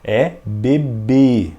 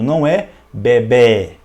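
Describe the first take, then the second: First: The final E vowel sounds closed. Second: The final E vowel sounds open. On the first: The speaker calls it right. "um som fechado" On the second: The speaker calls it wrong. "não é"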